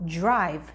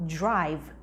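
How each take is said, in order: No difference in how they are said.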